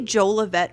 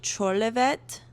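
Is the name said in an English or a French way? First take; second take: English; French. First: The name is said with an English pronunciation. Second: The name is said with a French pronunciation. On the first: This is how the speaker personally says it. "I say Jolivet" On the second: This is how the author says it is pronounced. "I think they're French, and I think she said it's pronounced like Cholivet"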